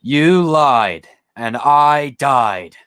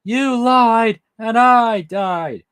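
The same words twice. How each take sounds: First: Slow, drawn-out and a little louder; slow hammed-up quote; dramatic movie line. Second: Much higher, very slow, fully hammed; high, drawn-out parody of the quote; over-the-top movie line. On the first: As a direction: drag out every word like a mock villain. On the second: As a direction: wail every word out slowly and theatrically. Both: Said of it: "remember the line".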